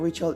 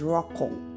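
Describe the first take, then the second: First: The name is said smoothly, without throaty sounds. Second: The name is said with a harsh throaty sound. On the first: This is the common English way of saying it. "Rachel is not Rachel" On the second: This is the Hebrew way of saying it. "in Hebrew ... is Rachel"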